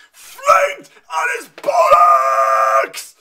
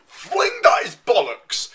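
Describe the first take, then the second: First: Screamed far higher and louder, stretched slowly; overreacting scream. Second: Said in the usual way. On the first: Real, not acted. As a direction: let it burst out in a shrieking yell. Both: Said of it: "getting overreacting there".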